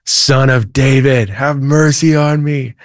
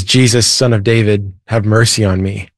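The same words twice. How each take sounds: First: Higher, slow mock cry, a bit louder; retold louder cry. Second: A mild mock cry, barely raised; lightly voiced blind man's plea; retold cry for mercy. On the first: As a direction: plead harder, stretching the words. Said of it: "He shouts even louder". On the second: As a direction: call out to Jesus without truly shouting. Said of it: "and he screams out loud".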